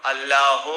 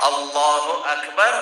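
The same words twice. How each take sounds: First: "اللہ" cut short as plain Allah with no u before akbar; wrong clipped Allah. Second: Slow, full "اللہ اکبر" with the u sounded, Allahu Akbar; correct Allahu Akbar. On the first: Preacher showing the congregation the mistaken takbir, clipped. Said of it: "نہ کہے". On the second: Preacher teaching the congregation the correct takbir, slow and careful. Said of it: "اللہ اکبر کہے". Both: Shown as a demonstration.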